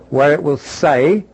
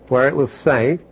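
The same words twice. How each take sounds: The two takes are said the same way.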